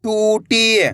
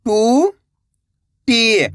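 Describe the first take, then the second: First: टूटी joined, long vowels; blended word. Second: टू, long pause, टी; टूटी split slowly, rising then falling; syllable by syllable. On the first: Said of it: "तो मिलके बन जाएगा". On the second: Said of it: "एक अक्षर का उच्चारण करना है". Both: Shown as a demonstration.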